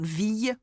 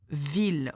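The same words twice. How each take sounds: First: The word is said with a y sound. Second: The word is said without a y sound. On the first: The speaker calls it wrong. "not ville" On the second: The speaker calls it right. "you do not make the sound y for ville"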